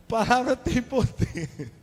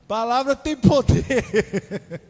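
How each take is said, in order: First: Slow and higher, each word weighted; mock-solemn warning. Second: Slow, laughing through the words; laughing mock warning. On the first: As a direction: wag a finger at bad omens. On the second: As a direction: chuckle as you scold superstitiously.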